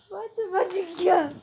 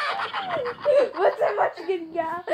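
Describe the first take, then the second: First: Said in the usual way. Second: Laughing. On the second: Real, not acted. Laughing at the clip.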